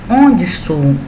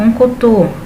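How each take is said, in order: First: The words are said separately in their full form. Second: The words are run together into one short form. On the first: This is the standard form used in writing. "mas na verdade quer dizer onde estou" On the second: This is how people from Minas speak it. "um linguajar bem peculiar que é do mineiro"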